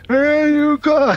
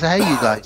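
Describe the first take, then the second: First: It is said in a Sloth impression voice. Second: It is said in a normal reading voice.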